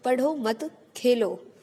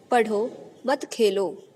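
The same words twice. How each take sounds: First: पढ़ो मत together, clear pause, then खेलो, slowly; pause after मत. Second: पढ़ो, clear pause, then मत खेलो together, slowly; pause after पढ़ो. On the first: Teacher showing how moving the comma changes meaning, pause after मत. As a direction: hold the break until after मत, then Khelo. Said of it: "पहले दो वाक्यों में सिर्फ चिन्ह बदलने से". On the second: Teacher showing children where the comma falls, pause after पढ़ो. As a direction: break right after पढ़ो, keep मत खेलो joined. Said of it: "पढ़ो के बाद रुकने के लिए बोला गया है". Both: Shown as a demonstration.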